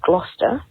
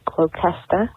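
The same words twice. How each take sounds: First: It is pronounced the local English way. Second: It is pronounced another way some Americans say it. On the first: The speaker calls it right. "the place that it happened is in a town called Gloucester" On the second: The speaker calls it wrong. "not Gloucester or Gloucester, which I've heard both from American Family"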